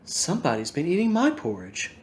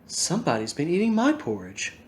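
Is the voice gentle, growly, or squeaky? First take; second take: gentle; gentle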